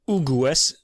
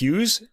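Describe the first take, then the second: First: The name is pronounced the Italian way. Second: The name is pronounced the English way. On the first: This is how an Italian would read the name. "An Italian would say Ugues" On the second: This is how the spelling looks to an English reader. "it looks like Hughes"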